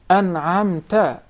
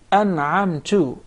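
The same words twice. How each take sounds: First: The last syllable ends with an a vowel. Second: The last syllable ends with a u vowel. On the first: The addressee bestowed the favor. The speaker calls it right. "because it is to the uh, second person" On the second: The speaker bestowed the favor. The speaker calls it wrong. "you change the vowel on top of the ta into Dhamma"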